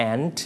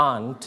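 First: "and" as the word aunt, said like "ant"; American style. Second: "aunt" softly as "ahnt"; British style. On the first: Teacher repeats American style, "and" said like "ant". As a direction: say "and" like the insect ant. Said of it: "หนูใช้แบบอเมริกัน". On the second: Teacher repeats English style, soft "aunt" as "ahnt". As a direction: say "aunt" with father's open "ah". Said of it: "อังกฤษนั่นเอง". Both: Shown as a demonstration.

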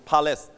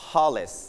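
The two takes are said the same way.

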